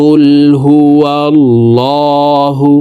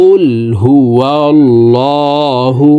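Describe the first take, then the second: The two takes are said the same way.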